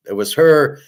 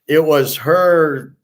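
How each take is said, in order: First: Said in the usual way. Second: It was her, drawn out slowly and higher, HER stressed; slow insistent stress. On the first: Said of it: "she asked me". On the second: Shown as a demonstration. Telling friends the girl asked first, insisting slowly on HER. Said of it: "she asked me, I didn't ask her".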